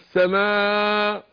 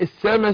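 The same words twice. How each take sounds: First: The word ends on a long vowel, no stop. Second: The word ends with a clear glottal stop. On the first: The speaker calls it wrong. "يروح معديها يقول لك السماء ... توقف على الف مش على همزه" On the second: The speaker calls it right. "السماء سمع همزه"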